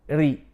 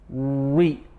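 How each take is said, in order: First: The r is light and flat. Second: The r is heavy and thick. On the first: The speaker calls it right. "Look at me" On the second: The speaker calls it wrong. "Don't say ri"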